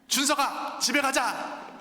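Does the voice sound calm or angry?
angry. The voice sounds louder and angry.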